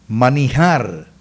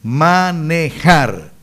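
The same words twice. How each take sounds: First: The error shown: manijar with i; wrong pronunciation. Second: Manejar said very slowly with e and a firm j; the correction: manejar with e; correct pronunciation. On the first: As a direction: slowly sound out manijar as the wrong way. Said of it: "No se dice manijar". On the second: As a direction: sound out manejar slowly, the right way. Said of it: "se dice manejar". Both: Shown as a demonstration.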